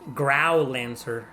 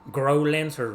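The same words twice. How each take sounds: First: The first part is not said like 'grow'. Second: The first part is said like the verb 'grow'. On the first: This is how some other people say it. "Some people pronounce it as Growlancer" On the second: This is how the speaker says it. "I see grow as in grow as in the, ver- the verb grow"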